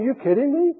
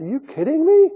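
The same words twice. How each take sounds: First: Higher mock-disbelieving echo; incredulous. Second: High, loud disbelieving retort; incredulous. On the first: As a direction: toss off the disbelief again. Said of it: "and he's saying". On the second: Retold or imitated. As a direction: scoff at the prophet in disbelief. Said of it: "looked incredulously at the prophet and said".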